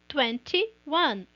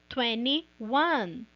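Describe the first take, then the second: First: The T in twenty is clearly pronounced. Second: The T in twenty is dropped.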